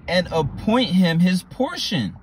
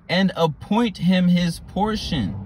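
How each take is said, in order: First: Appoint leaned on, slow; stressed verse line. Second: "appoint" stretched, very slow and solemn; drawn-out repeat. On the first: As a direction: land "appoint" with weight. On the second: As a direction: repeat it slower to let it sink in. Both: Shown as a demonstration. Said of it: "repeated slower".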